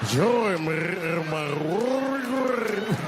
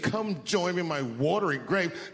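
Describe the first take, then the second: First: It is said with a rolling, gurgling throat. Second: It is said in a plain voice.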